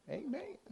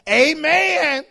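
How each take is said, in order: First: Soft, high amen with a rise; a small, questioning mock church amen; church lingo. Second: Booming, drawn-out high amen; church lingo. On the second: Retold or imitated. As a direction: belt out a mock congregational amen. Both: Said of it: "church has its own, own lingo".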